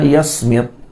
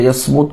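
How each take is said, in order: First: The last vowel is an i sound. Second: The last vowel is a u sound. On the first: "sebahagian membaca dengan yasmit" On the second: "bi fathil ya wa dhammil mim"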